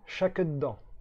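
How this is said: The first word begins with an sh sound. It is the Ch'ti form meaning go for it. "chaque, c'est le son se transformé en che"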